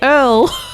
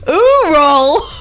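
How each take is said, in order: First: It is said as one syllable, 'earl'. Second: It is said as two syllables, 'you-ral'. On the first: "I say Earl" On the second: "who else pronounces U R L as Ural?"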